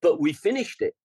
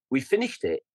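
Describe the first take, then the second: First: "finished" raised and firm; stress on finished. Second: Said in the usual way. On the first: Real, not acted. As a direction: lean on "finished".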